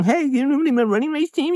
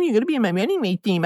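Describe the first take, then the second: First: Much higher, rising mock question; hammed-up nagging coach asking; mocking pushy coach. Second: Much higher, fast, insisting statement; hammed-up coach telling him flatly; mocking pushy coach.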